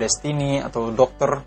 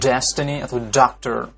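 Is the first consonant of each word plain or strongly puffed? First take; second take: plain; strongly puffed. First: The first consonants are soft with no burst. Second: The first consonants are pressed with a strong burst. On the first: The speaker calls it wrong. "bukan ... seperti bahasa Indonesia" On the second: The speaker calls it right. "Jadi ditekan"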